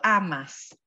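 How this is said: It is said with non-Argentine stress placement. "Nosotros tú amas"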